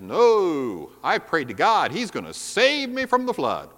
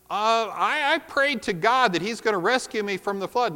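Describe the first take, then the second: First: It is said with great confidence. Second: It is said hesitantly, with less confidence.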